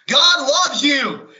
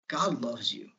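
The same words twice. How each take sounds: First: It is said very loudly, like shouting. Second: It is said softly with varied pitch. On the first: The speaker calls it wrong. "people can't control the volume of their voice" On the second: The speaker calls it right. "use inflection"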